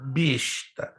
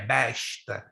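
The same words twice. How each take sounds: First: The first vowel is a closed e. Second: The first vowel is an open, strongly accented e. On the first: A beast, or an arrogant, pretentious person. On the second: A medieval weapon of war, a crossbow.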